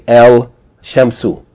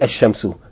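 First: The L of the article is clearly pronounced. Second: The L merges into a doubled sh sound. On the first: The speaker calls it wrong. "you're not going to say El Shamsu" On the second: The speaker calls it right. "You're going to say Ashamsu"

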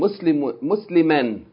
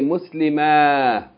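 First: The word ends with a short vowel plus n. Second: The word ends with a long a vowel. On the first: The reading continues past this word. "if you keep reading, you pronounce the tanween" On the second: The reading stops on this word. "if you stop on it ... you pronounce it as fatah. Aleph, as a long A"

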